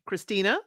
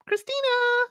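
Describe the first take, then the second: First: Said in the usual way. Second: Very high, drawn-out name call; imitated yell. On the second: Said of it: "her tone of voice when she's yelling out that name".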